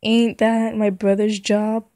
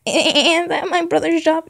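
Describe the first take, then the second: First: Said in the usual way. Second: Loud, high-pitched objection; hammed-up complaint to mom, pitched way up; indignant protest. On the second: Line reread as whining kid.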